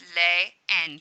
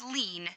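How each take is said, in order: First: The two vowels are said as two syllables. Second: The two vowels merge into one syllable. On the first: The speaker calls it right. "You hear both of those endings" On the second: The speaker calls it wrong. "It's not pronounced lean"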